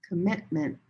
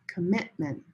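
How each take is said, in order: Both takes have the same delivery.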